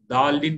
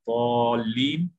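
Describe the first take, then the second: First: The word starts with a plain 'd' sound. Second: The word starts with an emphatic 'd' sound. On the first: The speaker calls it wrong. "दालिन बोलते बाद लोग दाल से, वो भी गलत है" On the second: The speaker calls it right. "वाद को अदा करने का तरीका गौर से देखिए"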